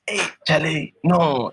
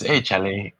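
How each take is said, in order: First: It sounds shocked and surprised. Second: It sounds like a casual, friendly greeting.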